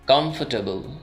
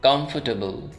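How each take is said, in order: First: The r sound is left silent. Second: The same.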